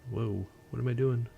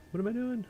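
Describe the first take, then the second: First: Said in the usual way. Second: What am I doing squeaked very high; high-pitched confused squeak. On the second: Real, not acted. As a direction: jump way up in pitch, baffled. Fumbling with stream controls.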